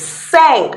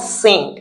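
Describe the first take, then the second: First: The vowel is nasal, French style. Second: It sounds like the English word sink. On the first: The speaker calls it right. "it's cinq" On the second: The speaker calls it wrong. "not sink"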